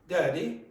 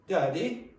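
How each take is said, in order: First: It is said with a Cork accent. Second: It is said with a Cork accent.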